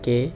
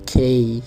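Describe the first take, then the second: First: The letter is said in a Bangladeshi accent. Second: The letter is said in a British accent. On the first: "বাংলাদেশিতে আছে কে" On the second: "British হয়েছে খেই"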